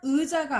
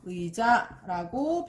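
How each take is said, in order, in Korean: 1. 첫 음절은 'ui'로 발음하지 않아요. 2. 첫 음절은 'ui'로 발음해요. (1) "의자가 아니라" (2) "의자라고 발음해야 합니다"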